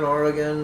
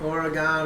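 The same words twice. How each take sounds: First: "Oregon" with a "gun" ending; reduced final vowel. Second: "Oregon" with a "gone" ending; full final vowel. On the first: Host tries both versions, "Oregon" ending like "gun". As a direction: weaken the end of "Oregon", OR-uh-gun. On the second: Host tries both versions, "Oregon" ending like "gone". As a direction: end "Oregon" on an open ah, OR-uh-gone. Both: Shown as a demonstration. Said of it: "Is it Oregon or is it Oregon?".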